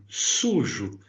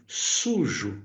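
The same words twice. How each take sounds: No difference in how they are said.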